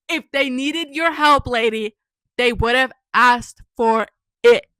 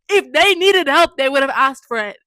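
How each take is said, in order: First: "they would have asked for it" slowly punched out word by word; slow, deliberate stress up to a loud, stretched "it"; emphatic, word by word. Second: Loud exasperated comeback; indignant. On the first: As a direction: lean on "your help", then space out "asked for it". Repeats it, stressing each word. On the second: Indignant reply to the mom's offer. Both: Real, not acted.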